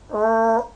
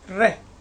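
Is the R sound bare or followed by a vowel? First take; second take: bare; with vowel. First: The R sound is made with no vowel after. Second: The R sound is made with a vowel after. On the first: The speaker calls it right. "The sound for R is R" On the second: The speaker calls it wrong. "Don't say re, re. That's wrong"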